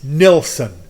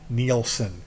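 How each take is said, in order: First: The name is said like Nilsson, first vowel short 'i'. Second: The name is said like Nielsen, first vowel 'ee'. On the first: The speaker calls it right. "It's Nilsson. N I L S S O N" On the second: The speaker calls it wrong. "You keep saying Nielsen. It's not Nielsen"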